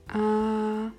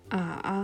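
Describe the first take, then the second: First: The pitch stays high and level. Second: The pitch dips low and then rises. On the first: "der erste Ton gleichbleibend" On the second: "der dritte Ton zuerst fallend und dann steigend"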